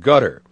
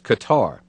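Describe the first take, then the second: First: It sounds like the English word gutter. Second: It does not sound like the word gutter. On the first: The speaker wants to sound familiar with the country. "the way journalists have taken up saying gutter" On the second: The speaker is not familiar with the country. "the uninitiated refer to as Qatar"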